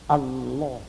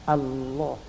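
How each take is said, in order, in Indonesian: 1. Bunyi L dibaca tebal dan penuh. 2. Bunyi L dibaca tebal dan penuh.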